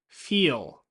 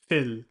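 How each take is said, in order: First: The vowel is long, as in feel. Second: The vowel is short, as in fill. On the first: The speaker calls it right. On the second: The speaker calls it wrong.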